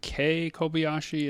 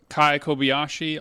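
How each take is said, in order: First: The first name has a 'day' vowel. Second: The first name has an 'eye' vowel. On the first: The speaker calls it right. "but it's actually Kei Kobayashi" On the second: The speaker calls it wrong. "I've been saying um, uh, Kai Kobayashi all this time"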